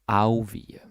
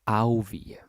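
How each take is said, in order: The two takes are said the same way.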